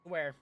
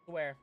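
Both takes have the same delivery.

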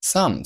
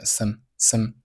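First: Said in the usual way. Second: "some" reduced to a short schwa, like "sum" swallowed; weak form. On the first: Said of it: "做了弱读". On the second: Shown as a demonstration. Teacher models "some" for learners in its weak, reduced form. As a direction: say "some" weakly, vowel barely there. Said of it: "Some做了弱读".

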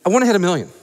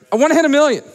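First: Said in the usual way. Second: Louder, higher, punched-up declaration; rallying shout. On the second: Real, not acted. Host pushing the crowd toward a million, rousing shout. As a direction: fire up the crowd with it.

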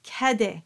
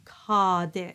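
First: Cadet with the A bright as in tap; tongue forward for an open A in cadet. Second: Cadet with a dark A as in top; too-dark A. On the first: Teacher giving the answer, cadet with open A. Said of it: "It is, in fact". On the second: Teacher mimicking English choirs, cadet with too-dark A. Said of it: "too dark". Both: Shown as a demonstration.

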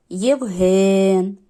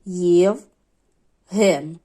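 First: «Євген» with a loud, long drawn-out «ген»; stress on second syllable. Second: «Євген» split in two, with a long pause between «Єв» and «ген»; по складах. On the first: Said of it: "подовжений другий". (протягнути наголошений другий склад у слові «Євген») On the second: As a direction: count out the two syllables of «Євген». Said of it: "скільки тут складів". (вимовити «Євген» по складах, з довгою паузою) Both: Shown as a demonstration.

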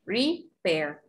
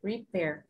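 First: Repair with a falling tune at the end; model pronunciation. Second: Repair with a small falling tune at the end. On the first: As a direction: let Repair drop at the end. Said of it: "la pronunciación de repair". (Repair con una caidita) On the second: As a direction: drop the pitch on Repair. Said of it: "Hace como una caidita". (Repair con una caidita al final) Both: Shown as a demonstration.

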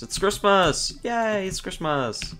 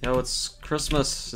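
First: Higher, gleeful Christmas cheer; excited. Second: Said in the usual way. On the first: Shown as a demonstration. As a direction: announce Christmas with glee.

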